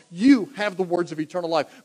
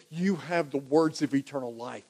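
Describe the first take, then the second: First: "you" punched at the start, leaning hard on "you"; stress on you. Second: Said in the usual way. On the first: Shown as a demonstration. Peter answering Jesus, stressing "you" firmly. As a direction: hit the word "you" like nobody else. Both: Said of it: "You, Jesus, you, nobody else".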